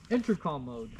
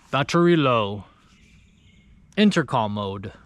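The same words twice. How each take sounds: First: Said in the usual way. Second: Lightly imitated German robot voice, a bit lower; deep German accent. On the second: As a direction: mimic the intercom's curt German accent, low. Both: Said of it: "it's in, like, a deep German accent".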